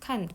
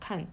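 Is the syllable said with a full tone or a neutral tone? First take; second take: full tone; neutral tone. First: The syllable carries its full falling tone. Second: The syllable is light and toneless.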